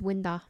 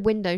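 First: The word ends in a short 'er' vowel. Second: The word ends in a clear 'oh' vowel. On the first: This is how a particular regional speaker says it. "she says winder" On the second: This is the usual way to say it. "instead of window"

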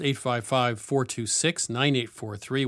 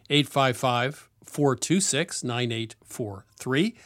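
First: It is said at normal speed. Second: It is said slowly.

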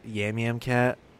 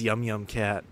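First: The first two words sound like 'yam'. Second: The first two words sound like 'yum'. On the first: The speaker calls it wrong. "I read it as Yam Yam Cat. So I mispronounced it for many years" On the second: The speaker calls it right. "This is Yum Yum Cat"

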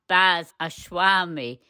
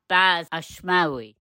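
First: The surname is said as Ashwami. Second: The surname is said as Ashmawi. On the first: The speaker calls it wrong. "It's not Baz Ashwami" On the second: The speaker calls it right. "it's Baz Ashmawi"

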